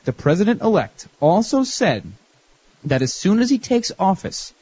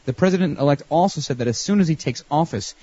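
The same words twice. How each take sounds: First: The sentence is read at a slow pace. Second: The sentence is read at a fast pace. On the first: "I'll read it slowly" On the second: "I read too fast anyway"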